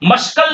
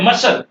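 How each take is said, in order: First: A k sound is heard after the s. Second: No k sound is heard after the s. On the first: The speaker calls it wrong. "मस्कल नहीं बोलना" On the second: The speaker calls it right. "मसल है मसल"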